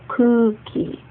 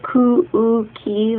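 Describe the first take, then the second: First: The u sound is one smooth long vowel. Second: The u sounds are split into separate beats. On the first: The speaker calls it right. "You just kind of elongate that u sound" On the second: The speaker calls it wrong. "we don't say ku-u-ki like that"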